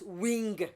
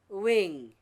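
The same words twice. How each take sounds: First: It ends with an audible hard g sound. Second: It ends in ng with no g sound. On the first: The speaker calls it wrong. "not wing" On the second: The speaker calls it right. "W I N G, wing"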